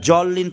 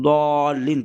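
First: জল লিন starting with a plain "j"; wrong j sound. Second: দ লিন with a heavy "d" start; correct d sound. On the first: Teacher shows the mistaken জল লিন with "j". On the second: Teacher gives the correct দ লিন, heavy "d". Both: Shown as a demonstration. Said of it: "জল লিন না পড়ে".

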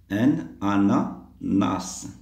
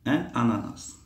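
First: Very slow "ananas", split into parts; slow word model. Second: Said in the usual way. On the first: Shown as a demonstration. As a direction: draw out "Un", then space out "ananas". Teacher models the word slowly. (prononciation très lente, découpée)

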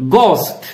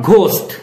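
First: "ghost" as gohst with a plain hard g; correct GHOST. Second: "ghost" as the learners' mistaken ghhost; wrong GHOST. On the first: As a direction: model "ghost" slowly, g without breath. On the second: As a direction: put a breathy gh on "ghost". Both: Shown as a demonstration. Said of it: "not ghost".

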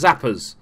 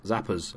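First: "Zappers" said louder and firmer; emphatic stress on "Zappers"; corrected name. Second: Said in the usual way. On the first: Real, not acted. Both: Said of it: "I got it wrong".

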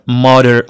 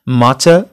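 First: ماتر with tapped T and sounded final R; American T. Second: ماتا with crisp T and no final R; British T. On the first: Teacher contrasting accents on one word, American T. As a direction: soften T to a quick D in ماتر, keep the R. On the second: Teacher contrasting accents on one word, British T. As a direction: end ماتا on an open "ah" after a true T. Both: Shown as a demonstration. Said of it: "كتبقى تي هذيك حاجة أخرى".

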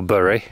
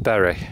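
First: "Bury" said like "burry"; alternative pronunciation. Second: "Bury" said like "berry"; first pronunciation. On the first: Walker offers the town's other pronunciation, "Bury" said as "burry". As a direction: say "Bury" to rhyme with "furry". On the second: Walker names the nearby town, "Bury" said as "berry". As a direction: say "Bury" with an e as in "bed". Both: Shown as a demonstration. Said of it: "depending on how you want to pronounce it".

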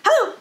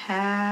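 First: A fast, high clipped hello; quick hello. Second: Slow hello. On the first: Teacher leading kids, saying hello as fast as possible. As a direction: snap it out fast. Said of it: "as fast as we can". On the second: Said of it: "as slowly as we can". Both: Shown as a demonstration.

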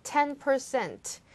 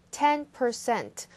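First: Slow "Ten percent", weight on "Ten"; stress on "Ten". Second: "Ten" hit hard, slow and falling; stress on "Ten". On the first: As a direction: lean on "Ten", drop at the end. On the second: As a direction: punch "Ten", then let "percent" fall. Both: Shown as a demonstration. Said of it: "숫자 강조하셔야 됩니다".

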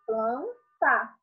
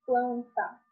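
First: "planta" in two beats, "plan", pause, "ta"; syllable by syllable. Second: Said in the usual way. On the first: Shown as a demonstration. Teacher separating the cluster syllable, syllable by syllable. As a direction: split "planta" after "plan". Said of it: "vamos separar as sílabas".

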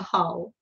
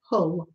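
First: Said in the usual way. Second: "Hull" as Mum would say it, Lancashire style; mum's Lancashire accent. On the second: Retold or imitated. Recalling how Mum named the town, Lancashire accent. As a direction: lightly imitate a Lancashire "Hull". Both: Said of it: "or how would she say it?".

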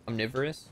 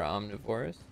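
First: Said in the usual way. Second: Omnivorous with the emphasis on the wrong syllable; misplaced stress. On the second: Real, not acted. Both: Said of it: "I put the emphasis on the wrong syllable".

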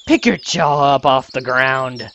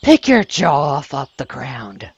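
First: Put-on slightly deep girl's line, too manly; lightly voiced hothead, coming out manly; too-manly character voice. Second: Slow, deliberate hothead character line; lightly voiced brash girl, drawn out; less manly retry. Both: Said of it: "That sounded too manly".

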